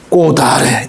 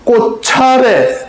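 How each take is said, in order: First: The final consonant carries over as a d sound. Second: The final consonant carries over as a ch sound. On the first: The speaker calls it right. "꽃아래 이렇게 발음합니다" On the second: The speaker calls it wrong. "꽃차례 라고 발음 안 하잖아요"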